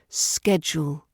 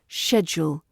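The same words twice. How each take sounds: First: The word begins with a 'sk' sound. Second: The word begins with an 'sh' sound. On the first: "American English, it's schedule" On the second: "British English, we use the sh sound"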